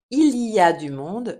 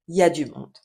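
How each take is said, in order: First: The word 'il' is pronounced in full. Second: The 'il' is dropped, leaving 'y a'.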